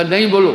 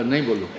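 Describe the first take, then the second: First: Higher, louder mock scolding; retold exasperated order. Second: Lower, toned-down parroting; imitating little brother's echo. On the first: Elder brother stopping the echo, raised exasperated voice. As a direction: cut in with a raised, insistent command. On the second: Little brother copying the order, low parroted echo. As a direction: repeat the order back tamely. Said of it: "वो भी बोला".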